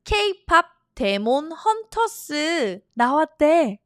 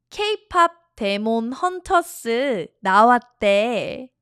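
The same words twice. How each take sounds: First: K-pop in Korean sounds, keipap; a lightly Korean-accented K-pop. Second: K-pop said the Korean way, as keipap; English loanword in a Korean accent. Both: Shown as a demonstration. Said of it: "Oh, I'm doing the Korean accent".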